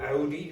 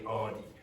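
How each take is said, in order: First: The first vowel sounds like 'ow'. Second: The first vowel sounds like 'aw'. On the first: It follows the original German pronunciation. "it's a German name and they say Audi" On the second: It follows the usual English pronunciation. "In English, you usually say Audi"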